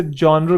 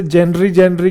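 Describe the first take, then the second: First: जॉनर said as "ZHON-er"; correct pronunciation. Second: जेनरी said with a "jen-ree" sound; childhood mispronunciation. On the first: Shown as a demonstration. Teacher correcting his childhood mistake, correct pronunciation of genre. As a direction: open "on" vowel in जॉनर, ending in "-er". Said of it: "इसे जॉनर कहते हैं". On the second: Retold or imitated. Teacher recalling his own childhood mistake, mispronounced genre. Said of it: "ये जेनरी नहीं होता, इसे जॉनर कहते हैं".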